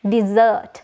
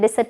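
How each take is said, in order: First: The z sound is slightly drawn out. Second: The z sound is short, not drawn out. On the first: The speaker calls it right. "z sound එකත් එක්ක චූටි ඇදීමක් සිද්ධ වෙනවා" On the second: The speaker calls it wrong. "හැබැයි මේකේ pronunciation සම්පූර්ණයෙන්ම වැරදි"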